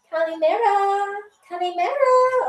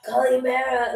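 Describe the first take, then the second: First: High, singsong feminine hello, swooping higher; woman's greeting. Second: Lightly put-on dude voice; man voice. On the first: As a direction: greet a hotel crush in a high girly lilt. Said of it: "Or if you're a dude". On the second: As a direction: have a go at a man's greeting. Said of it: "like, a man voice". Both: Shown as a demonstration.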